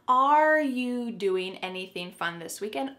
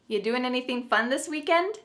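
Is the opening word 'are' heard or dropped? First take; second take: heard; dropped. First: The question starts with the word 'are'. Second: The question starts directly with 'you'. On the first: "Should there be another word? Yep" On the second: "the word are, it's on vacation, it's just gone somewhere"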